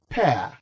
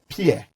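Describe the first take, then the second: First: The word sounds like 'pair'. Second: The word sounds like 'peer'. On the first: It names the fruit you eat. The speaker calls it right. "is pronounced as pear" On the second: It names a person of equal standing. The speaker calls it wrong. "not pear. If it is pear, you must be talking about P E E R, peer"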